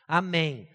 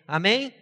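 First: Said in the usual way. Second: Rising, prompting amen; calling for amen. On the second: Real, not acted. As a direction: ask the congregation for amen. Preacher calls for amen.

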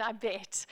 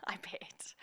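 First: Said in the usual way. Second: Whispered, laughing aside. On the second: Real, not acted. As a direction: drop to a private whisper.

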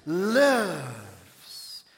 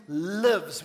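First: "Lives" stretched long and loud, falling away; loud, drawn-out "Lives" with relish; livelier "Lives". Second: Said in the usual way. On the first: Shown as a demonstration. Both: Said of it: "Say it a bit more with a liveliness".

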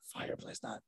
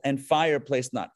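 First: Whispered echo of the odd wording; puzzled aside. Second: Said in the usual way. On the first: Real, not acted. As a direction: whisper it to yourself, baffled. Repeats the odd phrase to himself.

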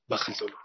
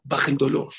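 First: Baja el dolor said softly and low; preacher softly consoling the listeners; soft and gentle. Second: Said in the usual way. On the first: Shown as a demonstration. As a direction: let baja el dolor sink in quietly. Repeated line, soft first take.

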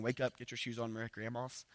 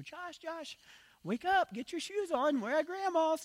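First: Said in the usual way. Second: Very high, singsong imitation of a mother; slow falsetto coaxing a sleepy child; mom's wake-up voice. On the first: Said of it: "your mom said the same thing". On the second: Son imitating mom waking him in the car, high motherly voice. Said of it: "I could still hear her voice".

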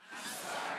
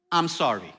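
First: Said in the usual way. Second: Low, soft sincere I'm sorry; quiet sincere apology; simple apology. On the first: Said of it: "Everyone together". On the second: Shown as a demonstration. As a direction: say it plainly and humbly. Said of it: "two words".

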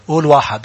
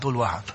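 First: Said in the usual way. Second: Drops to a murmur on قول واحد; much softer. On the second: Shown as a demonstration. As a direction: says قول واحد barely above a breath, much softer. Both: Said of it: "قول واحد على صوت عالي".

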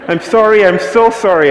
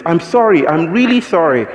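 First: Imitating a desperate man, much higher and louder; more frantic apology. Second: Imitating a flustered man, higher and louder; mock the German guy's panicky sorry; frantic apology. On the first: German man doubling down on his apology, desperate mock pleading. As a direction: ham up his escalating panicked sorry. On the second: German man apologising to the speaker, hammed-up flustered sorry. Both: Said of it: "he was shocked and was like".

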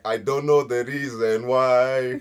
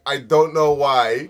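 First: Slow drawn-out punchline. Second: Slow mock British. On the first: Retold or imitated. Telling friends the Zimbabwean meme, slow and drawn out. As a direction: land the joke slowly. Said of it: "But Zimbabwean people be like". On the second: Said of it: "British people be like".

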